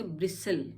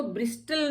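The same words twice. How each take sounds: First: ब्रिसल with S straight into L; silent T. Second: ब्रिस्टल with a clear T after S; wrongly sounded T. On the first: Teacher models it for learners, ब्रिसल with silent T. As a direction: leave the T out of ब्रिसल. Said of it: "इसमें टी silent". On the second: Teacher shows what not to read, ब्रिस्टल with T. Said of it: "इसको ब्रिस्टल नहीं पढ़ते हैं". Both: Shown as a demonstration.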